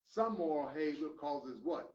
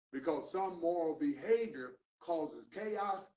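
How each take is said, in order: First: "what" lifted into a question for the crowd to answer; preacher's call-and-response question; rising call to the congregation. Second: Said in the usual way. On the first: Shown as a demonstration.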